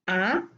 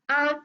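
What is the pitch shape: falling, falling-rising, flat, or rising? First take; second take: rising; flat. First: The pitch rises from middle to high. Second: The pitch stays level and flat. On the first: "Second one, rising tone" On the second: "The first one is the flat tone"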